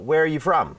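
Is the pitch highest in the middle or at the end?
middle. The pitch rises in the middle of the sentence. It is a first meeting. "อันนี้คือเจอกันครั้งแรก"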